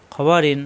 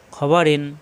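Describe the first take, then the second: No difference in how they are said.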